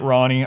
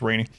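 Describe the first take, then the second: First: The first vowel sounds like 'ah'. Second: The first vowel sounds like 'ay'. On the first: This is how the game's characters say it. The speaker calls it wrong. "the N P Cs pronounce it Ronnie" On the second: This is the speaker's preferred way of saying it. The speaker calls it right. "I like it as Rainy"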